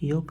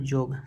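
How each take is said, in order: First: The word begins with a y sound. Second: The word begins with a j sound. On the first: This is the standard Hindi form. "कहूँ कहूँ यह यह जो है यह का उच्चारण ज हो जाएगा" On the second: This is the Nagpuri form. "यह का उच्चारण ज हो जाएगा"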